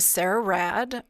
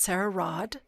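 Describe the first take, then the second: First: "Rad" with the flat American vowel, as in "mad"; American pronunciation of the name. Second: "Rod" with an open back vowel, imitating British; attempted British pronunciation. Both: Shown as a demonstration. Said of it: "if I say it with the correct accent".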